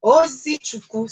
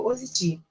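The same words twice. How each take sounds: First: Ozichukwu said slowly and in full, oh-zee-choo-kwoo, with a louder, higher stress; carefully sounding out Ozichukwu as the correction; full name Ozichukwu, said slow and deliberate; corrected name. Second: Ozichi said clipped, ending after chi; shortened name Ozichi, missing the ending kwu; first cut-short try at the name; wrong name. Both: Real, not acted. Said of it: "Sorry, somebody corrected me".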